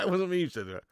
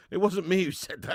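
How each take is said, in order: First: Repeated in a put-on voice, not his own; put-on denial voice. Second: Said in the usual way. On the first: Shown as a demonstration. Streamer jokingly denying a chat prediction, put-on voice. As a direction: say it again as a mock character. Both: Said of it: "repeats the line in another voice".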